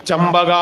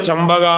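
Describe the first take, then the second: The two takes are said the same way.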